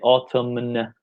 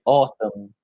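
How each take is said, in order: First: The final N sound is pronounced. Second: The final N sound is silent. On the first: The speaker calls it wrong. "we don't say autumn" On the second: The speaker calls it right. "the N at the very end is uh, is is silent"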